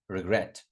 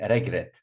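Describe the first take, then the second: First: The stress is on the second syllable. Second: The stress is on the first syllable. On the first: The speaker calls it right. "No, regret" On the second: The speaker calls it wrong. "A lot of students say regret"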